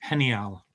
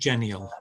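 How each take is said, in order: First: The first sound is like a breathy h. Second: The first sound is like English j. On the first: The speaker calls it right. "G is is a sort of h sound" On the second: The speaker calls it wrong. "not not genial"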